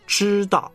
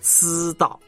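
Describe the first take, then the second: First: The initial zh is said with a curled tongue. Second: The initial sound is said with a flat tongue. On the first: The speaker calls it right. "知道不是知道" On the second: The speaker calls it wrong. "不是"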